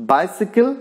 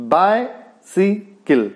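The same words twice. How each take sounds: First: Said in the usual way. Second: "bicycle" very slowly split, BI, cy, cle; syllable by syllable. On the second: Shown as a demonstration. Teacher showing a dactylic word, "bicycle" slowly syllable by syllable. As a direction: say "bicycle" in three separate beats, first one stressed. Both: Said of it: "first stressed and next to unstressed".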